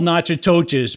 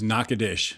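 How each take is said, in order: First: The name is pronounced letter by letter as spelled. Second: The name is pronounced the local way, unlike spelling. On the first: The speaker calls it wrong. "Spelled Natchitoches, but don't say it that way" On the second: The speaker calls it right. "It is Natchitoches"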